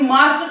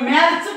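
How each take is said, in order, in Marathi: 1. स्वर दीर्घ आणि उघडा आहे, father सारखा. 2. स्वर छोटा आणि पुढचा आहे, cat सारखा. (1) "मार्च का म्हणतात" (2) "याला मॅर्च का म्हणत नाही"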